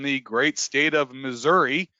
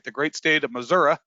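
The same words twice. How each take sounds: First: Missouri is said the common, general way. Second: Missouri is said the local, native way. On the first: The speaker calls it wrong. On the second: The speaker calls it right.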